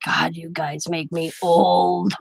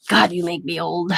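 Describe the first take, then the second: First: Dragged out very slowly, low; slow lament. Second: Said in the usual way. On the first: Retold or imitated. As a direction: stretch every word like a tired old man. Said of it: "he's like". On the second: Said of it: "He's like, he told Diamond".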